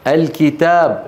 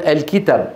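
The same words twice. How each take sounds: First: الكتاب with a long aa: al-kitaab; with the alif. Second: الكتاب with a short last vowel: al-kitab; without the alif. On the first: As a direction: hold the last vowel of الكتاب. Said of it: "لولا الألف". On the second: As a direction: cut the a short before the b in الكتاب. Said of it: "لولا الألف كنا نقول". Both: Shown as a demonstration.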